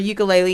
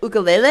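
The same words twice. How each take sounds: First: It is said with a common English pronunciation. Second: It is said with a native Hawaiian pronunciation. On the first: "the common way of saying it" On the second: "the more native version"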